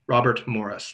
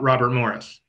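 First: The T sound in Robert is clearly pronounced. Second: The T sound in Robert is dropped. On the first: The speaker calls it right. "there's a T in there, use it" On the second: The speaker calls it wrong. "not Robert Morris"

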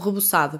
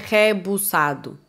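First: The first syllable has a weak, reduced vowel. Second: The first syllable has an open e vowel. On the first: This is how people in Portugal say it. "então é re" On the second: This is how Brazilians say it. "Para nós não é rebuçado"

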